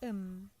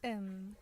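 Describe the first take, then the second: No difference in how they are said.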